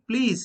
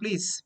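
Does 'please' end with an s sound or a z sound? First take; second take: z sound; s sound. First: It ends with a buzzing z sound. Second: It ends with a hissing s sound. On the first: The speaker calls it right. "Just like zoo" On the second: The speaker calls it wrong. "it's not please"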